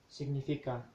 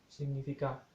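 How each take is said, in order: The two takes are said the same way.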